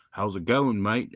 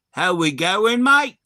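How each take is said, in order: First: Aussie greeting in an everyday pitch; understated imitation of an Aussie; lightly voiced Australian accent. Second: Loud, high exaggerated Aussie twang; hammed-up Australian greeting, pitch leaping up on the last word; mock the Aussie greeting at full volume; mock Aussie accent. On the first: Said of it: "There was a couple of Aussies". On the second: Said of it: "And I was like".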